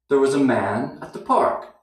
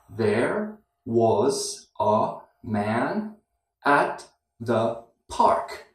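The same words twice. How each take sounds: First: It is spoken fast with weak, reduced words. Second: It is spoken slowly with every word clear.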